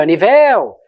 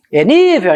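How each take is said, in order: First: Nível with stress wrongly moved to a long final VEL; called-out stress test. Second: Nível called out loud and high on NÍ; called-out stress test. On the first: Teacher trying the wrong stress aloud, niVÉL. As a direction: hit the last syllable of nível. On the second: Teacher testing the right stress, loud NÍvel. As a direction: punch the first syllable of nível. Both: Shown as a demonstration. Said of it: "e é gritar mesmo".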